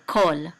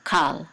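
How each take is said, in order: First: "kol" with an oh vowel; pronunciation. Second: "kal" with an open ah vowel; pronunciation. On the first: Teacher shows the preserved kamatz in "kol". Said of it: "and we say". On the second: Teacher contrasts the modern reading "kal". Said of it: "instead of". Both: Shown as a demonstration.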